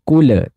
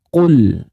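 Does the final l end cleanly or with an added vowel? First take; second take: added vowel; cleanly. First: The final l is released with an added vowel. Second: The final l is held clearly without any vowel. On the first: The speaker calls it wrong. "Bukan kule" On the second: The speaker calls it right. "tapi qul"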